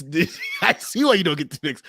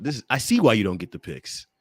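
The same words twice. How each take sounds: First: Higher, laughing self-mockery. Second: Said in the usual way. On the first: Real, not acted. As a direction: laugh at being rattled. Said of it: "I'm rattled". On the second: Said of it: "I'm all rattled".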